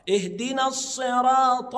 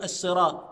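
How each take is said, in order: First: Slow "اهدنا الصراط" with heavy emphatic s; full sad. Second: "الصراط" as as-siraat with thin s; sad turned to sin. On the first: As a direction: thicken and hold the sad in "الصراط". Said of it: "يبقى الصاد صاد". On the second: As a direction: lighten the first consonant of "الصراط" to a plain s. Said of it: "اوعى تنطقها السي". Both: Shown as a demonstration.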